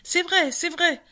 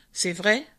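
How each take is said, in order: First: High, eager agreement; confirming. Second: Low, mild admission from the bear; acquiescing. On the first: The other animals backing what the bear admitted, high-voiced confirmation. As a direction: chime in as a crowd, pitched up. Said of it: "confirmèrent les autres bêtes". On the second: Bear conceding the fox's point about the claws, subdued acquiescence. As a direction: concede it briefly, voice a little sunk. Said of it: "acquiesça maître Martin". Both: A narrator's reading.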